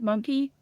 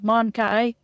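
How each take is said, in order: First: The second syllable sounds like 'key'. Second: The second syllable sounds like 'kai'. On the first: The speaker calls it wrong. "I will never pronounce it monkey" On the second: The speaker calls it right. "it's Mon it's Mon Kai"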